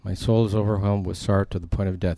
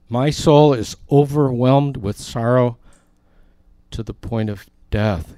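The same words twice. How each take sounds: First: Softer, subdued quiet sorrow; hushed sorrow. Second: Anguished quote. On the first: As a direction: say it low as if crushed. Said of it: "He's saying, "The sorrow is killing me". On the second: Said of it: "he said to them". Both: Retold or imitated.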